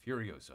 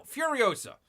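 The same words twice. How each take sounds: First: Said in the usual way. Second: Emphatic call-out. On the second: Shown as a demonstration.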